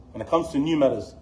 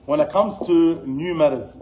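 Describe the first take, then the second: First: Said in the usual way. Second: "When it comes to new matters" slow and louder, each word weighted; slow, louder and deliberate; slow emphatic opening. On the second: Acted. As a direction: lean on it slowly to announce the topic. Emphatic then plain repeat.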